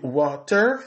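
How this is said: The t in water is a clear t. "on dit water, c'est dans anglais britannique"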